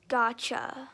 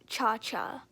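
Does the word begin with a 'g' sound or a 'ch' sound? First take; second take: g sound; ch sound. First: The word begins with a hard g sound. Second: The word begins with a ch sound. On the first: This is the usual pronunciation. "it's usually pronounced gacha" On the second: This is the speaker's personal pronunciation. "I usually pronounce it like cha-cha"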